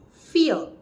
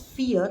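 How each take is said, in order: First: The vowel is clipped short. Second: The vowel is held long. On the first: This is the first part of fourteen. "in vierzehn we pronounce fear as a short" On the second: This is the word four on its own. "when you pronounce fear, that is four in German"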